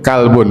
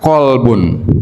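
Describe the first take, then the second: First: It starts with a plain front k sound. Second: It starts with a deep throaty q sound. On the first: The word means dog. The speaker calls it wrong. "Dog gitu, anjing itu, kalbun gitu" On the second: The word means heart. The speaker calls it right. "Bahasa Arabnya ya kolbun"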